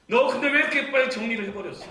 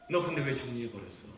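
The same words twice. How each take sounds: First: Loud, high anguished plea; pleading cry. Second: Said in the usual way. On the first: Shown as a demonstration. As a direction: cry out the question to the one who left. (떠난 자식에게 외치는 하나님의 절규) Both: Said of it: "repeated question, soft then loud".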